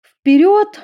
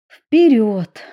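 First: Very high loud rallying call; commanding call. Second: Cheerful smiling call. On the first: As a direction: point and call them forward. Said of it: "указала на дверь Эдисон". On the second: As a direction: say it with a smile. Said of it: "улыбнулась Эмили". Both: A narrator's reading.

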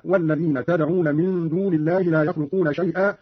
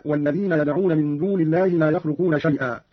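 First: تدعون said "tad'una", t first; Qalun's تدعون with an initial ta; read with ta. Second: Said in the usual way. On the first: Shown as a demonstration. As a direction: start تدعون with t instead of y. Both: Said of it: "قرأ قالون بالتاء هكذا".

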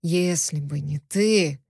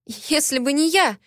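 First: Slow, low, sinister male voice, stressing ты; ominous. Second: High pitched indignant, stressing я; a higher-pitched indignant line that hits я. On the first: Prisoner throws her words back, ominously. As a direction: drag it out darkly, landing on ты. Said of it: "зловеще произнёс пленник". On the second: Heroine protests to the captor, hitting я. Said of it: "возмущённо прошептала я". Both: A narrator's reading.

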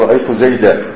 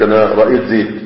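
First: زيدا ending in a clear open a, zeda; رأيت زيدا, stop on the alif, zeda; pause on zayda with alif. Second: زيد ended flat, no alif, stopped dead as zed; رأيت زيد with زيد closed silent as zed; pause on bare zayd. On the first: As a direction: finish زيدا with a long open a as the standard requires. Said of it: "المفروض تقول". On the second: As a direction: say زيد clipped to zed with no final vowel, the everyday way. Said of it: "ودي اللهجة العامية الموجودة عند الناس". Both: Shown as a demonstration.

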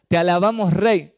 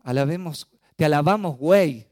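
First: "rey" said clearly and loud with a tapped r; "rey" with a crisp r, not "güey"; correct rey. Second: "güey" said loud instead of "rey", like slang for dude; "güey" with a gw sound where "rey" should be; misheard güey. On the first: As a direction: correct it firmly, "te alabamos, rey". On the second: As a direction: blurt "te alabamos, güey" as the child's mishearing. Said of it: "No, no dijo eso". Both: Retold or imitated.

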